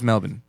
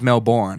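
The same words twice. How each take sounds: First: It is pronounced the Australian way. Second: It is pronounced the American way. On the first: "Australia's Melbourne" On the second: "here in America, it's Melbourne"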